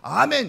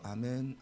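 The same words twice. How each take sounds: First: It is said loudly, as a proclamation. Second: It is said quietly, to oneself.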